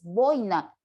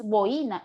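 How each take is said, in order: First: Boina in two syllables, BOI-na, stress on boi; correct boina. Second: Boina split as bo-I-na, stress on the i; wrong boina. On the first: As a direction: say boina as BOI-na, one diphthong. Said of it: "es boina". (boina en dos sílabas, BOI-na, con diptongo) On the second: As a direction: say boina in three syllables, bo-I-na. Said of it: "que no es boina". (boina en tres sílabas, acento en la i, bo-Í-na) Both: Shown as a demonstration.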